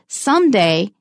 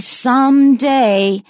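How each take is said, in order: First: The two parts run together lightly, not strong. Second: The two parts are said strongly and emphatically. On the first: "very uh, closely linked together, written as one word, it is not as strong" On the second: "very strong and emphatic"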